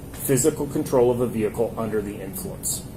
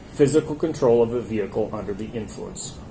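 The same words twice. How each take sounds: The two takes are said the same way.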